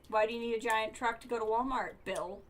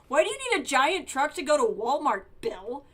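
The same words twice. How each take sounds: First: It is read flatly, without much attitude. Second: It is read with strong, expressive attitude.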